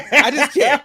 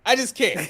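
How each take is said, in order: First: Louder, higher disbelieving repeat; exasperated. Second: Said in the usual way. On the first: Real, not acted. Fan still stunned by the food theft, louder and higher. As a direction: throw up your hands in disbelief. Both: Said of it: "I still can't get over".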